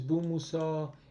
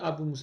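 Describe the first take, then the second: First: The name starts directly with the 'b' sound. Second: The name starts with an extra 'a' vowel sound. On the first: The speaker calls it right. "it's Bu Musa" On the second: The speaker calls it wrong. "It's not Abu Musa"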